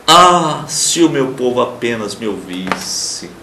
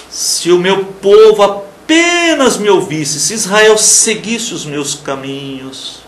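First: A wistful divine lament. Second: Slow, emphatic scripture reading; measured declamation of the verse; plain reading. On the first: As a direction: voice God's sorrow, gently and slowly. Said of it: "Ele lamenta". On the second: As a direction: read the verse out, firm and slow. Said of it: "Como é que eu vejo o versículo treze?". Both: Shown as a demonstration.

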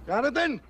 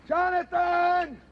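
First: Short, puzzled call of a name; tentative searching call; questioning call. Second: Long, drawn-out high call; stretched, raised-pitch shout of a name. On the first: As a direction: call out uncertainly for your friend. Looks for his vanished friend. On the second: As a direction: holler slowly for your missing friend. Calls out for vanished friend. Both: Acted.

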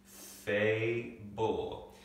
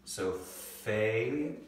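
First: Fable said as one word with a falling close; whole word. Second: Fable said very slowly, scooping FA then ble; scooping syllables. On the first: Teacher blends fable back together for students. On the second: Teacher scoops fable's syllables for students. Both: Shown as a demonstration. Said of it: "we'll scoop the first syllable".

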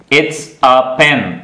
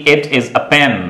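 First: IT'S as one slow syllable, its; contracted it's. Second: IT IS as two separate words; full uncontracted form. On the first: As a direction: model "it's" slowly as a single word before pen. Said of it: "यानी कि it is a pen". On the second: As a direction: sound IS in full after "it". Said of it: "यानी कि". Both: Shown as a demonstration.

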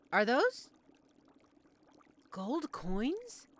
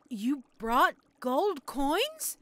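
First: Tentative rising question; hesitant disbelief. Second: Very slow, louder rising question; stunned disbelief. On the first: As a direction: ask it as if unsure of your eyes. Witch notices the customer's money. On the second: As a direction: spell out your amazement word by word. Astonished that customer can pay. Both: Acted.

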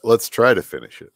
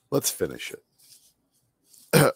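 First: Said in the usual way. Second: Drawn-out. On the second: Shown as a demonstration.

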